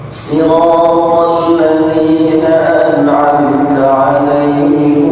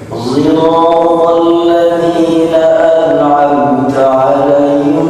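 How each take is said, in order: First: It starts with a plain s; alaihimu ends in -mu. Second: It starts with a z-like sound; alaihum ends in -hum. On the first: "sekarang pakai sin dengan alaihimu juga" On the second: "shad dengan zai seperti tadi, ... alaihim dengan menjadi alaihum"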